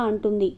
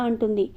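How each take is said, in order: No difference in how they are said.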